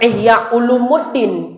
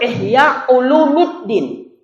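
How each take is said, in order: First: The vowel before the final syllable is 'u'. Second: The vowel before the final syllable is 'i'. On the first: The speaker calls it wrong. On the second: The speaker calls it right. "penyebutan yang betul"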